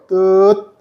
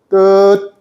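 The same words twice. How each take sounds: Both takes have the same delivery.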